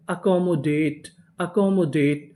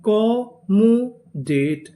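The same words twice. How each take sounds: First: Said in the usual way. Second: Very slow, each syllable drawn out; slow spelled-out build. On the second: Shown as a demonstration. Teacher stretching the new word for students. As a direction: sound it out piece by piece. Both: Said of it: "पूरी meaning क्या बनी?".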